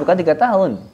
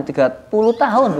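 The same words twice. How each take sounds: First: Said in the usual way. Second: Tiga puluh tahun, slower and higher; stress on tiga puluh tahun. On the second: Shown as a demonstration.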